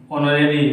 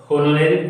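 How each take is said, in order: First: ऑनरेरी said "onorary", opening on a plain o with no h; ऑनरेरी starts straight on the vowel, h fully silent; correct pronunciation. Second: होनोरेरी said with a sounded h, "honorary", the wrong way; होनोरेरी opens on a breathy h, mocked as the mistake; wrong pronunciation. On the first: Teacher showing students ऑनरेरी with a silent h. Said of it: "एच नहीं". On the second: Teacher mocking the wrong होनोरेरी with a sounded h. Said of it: "थोड़ी कहते हैं". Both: Shown as a demonstration.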